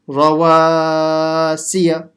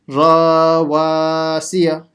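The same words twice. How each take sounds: First: Only the middle syllable wa is lengthened. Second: Both ra and wa are lengthened. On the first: The speaker calls it right. "Only stretching the alif letter in the middle" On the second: The speaker calls it wrong. "stretching the ra as well. That's a mistake"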